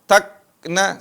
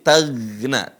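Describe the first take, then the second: First: The consonant before 'na' is a hard k. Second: The consonant before 'na' is a throaty gh. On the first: The speaker calls it wrong. "takna seperti kaf" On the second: The speaker calls it right. "Bukan ka, tapi gha, gha. Mirip huruf G"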